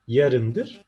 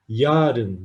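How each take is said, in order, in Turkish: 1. Ünlü kısa telaffuz edilir. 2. Ünlü uzatılarak telaffuz edilir. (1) "Kısa telaffuz edilir" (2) "Yarın değildir"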